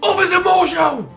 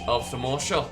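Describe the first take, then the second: First: It is shouted loudly. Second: It is said at normal volume.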